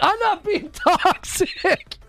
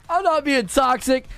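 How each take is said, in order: First: High, slow, laughing through the words; laughing denial. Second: Said in the usual way. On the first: Real, not acted. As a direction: deny it while cracking up. Denies being toxic while laughing.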